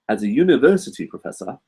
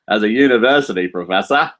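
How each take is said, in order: First: It is said in an English accent. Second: It is said in an Australian accent.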